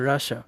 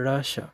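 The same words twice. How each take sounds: First: The word ends with a 'sha' sound. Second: The same.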